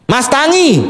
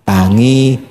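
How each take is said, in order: First: Bossy wife. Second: Low submissive echo; meek husband. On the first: Wife ordering her husband to get up, high and commanding. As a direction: bark the wake-up call. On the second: Husband meekly echoing his wife's order, low. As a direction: repeat the order obediently. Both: Acted.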